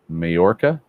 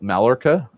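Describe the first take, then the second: First: The double L is said as a Y sound. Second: The double L is said as an L sound. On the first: "I'm going to say it with Spanish inflection" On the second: "I assume double L"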